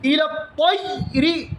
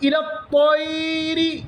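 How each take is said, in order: First: The ya sound is made heavy and doubled. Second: The ya sound is drawn out and lengthened. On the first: "കട്ടിയാക്കാനോ പാടില്ല" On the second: "അവിടെ നീട്ടാനോ ... പാടില്ല"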